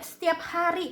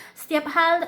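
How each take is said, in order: First: Said in the usual way. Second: "hal" said with l in place of the r of "hari"; cadel. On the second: Real, not acted. (cadel, "hari" terucap "hal") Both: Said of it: "maaf saya cadel kadang-kadang".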